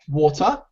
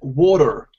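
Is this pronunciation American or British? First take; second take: British; American. First: The final R is not pronounced at all. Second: The final R is clearly pronounced. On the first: "So the British and the Australians, they would say water. The R is not heard at all" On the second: "the American standard"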